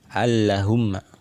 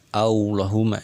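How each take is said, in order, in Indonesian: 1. Huruf L dibaca tipis. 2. Huruf L dibaca tebal. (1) "Ini cara membaca yang salah" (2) "Di sini lamnya ditebalkan"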